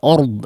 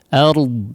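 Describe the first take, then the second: First: The vowel is rounded like 'o'. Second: The vowel is a full open 'a'. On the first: The speaker calls it wrong. "jangan o ya" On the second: The speaker calls it right. "ingat fathahnya disempurnakan ya, jangan o"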